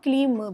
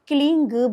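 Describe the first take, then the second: First: The word ends with an m sound. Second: The word ends with an ng sound. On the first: This form is used by householders. "और क्लीम भी है" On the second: This form is used by saints and ascetics. "अब क्लीं ग भी है pronunciation"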